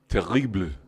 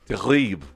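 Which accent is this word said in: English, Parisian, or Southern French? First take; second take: Parisian; Southern. First: It is said in Parisian French, sounding the final E. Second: It is said in southern French, dropping a syllable. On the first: "like Paris, you might hear more like terrible. You'd even hear the E" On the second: "in the south of France, they would say terrible"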